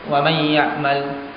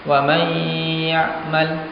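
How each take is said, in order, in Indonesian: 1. Bunyi sengau langsung lewat tanpa ditahan. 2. Bunyi sengau ditahan selama dua harakat. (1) "jangan langsung" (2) "tapi ditahan, digunnahkan. Dengan kadar dua harakat"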